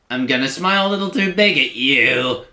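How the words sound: It is read in an All Engines Go Thomas voice.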